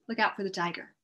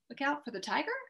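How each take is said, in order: First: It is a calm statement falling at the end. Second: It rises at the end like a question.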